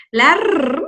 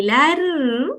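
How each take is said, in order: First: "la R" with the R held as a long trill; strong R. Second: "la R" with a light, untrilled R held softly; soft single R. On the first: Teacher naming the double R, long strong trill. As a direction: roll the end of "la R". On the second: Teacher naming the lone R, soft sound. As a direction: keep the R in "la R" gentle. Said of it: "que está solita". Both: Shown as a demonstration.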